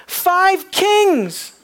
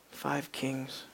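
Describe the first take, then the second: First: Five kings declared very high and loud, falling hard on kings; ringing Five kings, stress on kings; triumphant proclamation. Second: Five kings said low and soft, leaning on Five; quiet, grave Five kings, stress on five; hushed reveal. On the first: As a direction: announce Five kings like a victory shout. Climactic declaration of victory. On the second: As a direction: drop to a near-whisper for Five kings. Quiet answer about the tomb. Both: Real, not acted.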